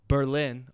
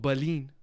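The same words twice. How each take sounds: First: It is pronounced in a plain American way. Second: It is pronounced in a German-sounding way.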